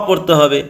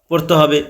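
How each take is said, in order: Both takes have the same delivery.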